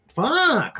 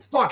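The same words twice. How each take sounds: First: The word builds up, sounding dismayed. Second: The word is said sharply, in anger. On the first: Disbelief at one's own basic mistake. The speaker calls it right. "It was like fuck. Like it did like a like a sort of crescendo" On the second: Frustration aimed outward. The speaker calls it wrong. "it wasn't like"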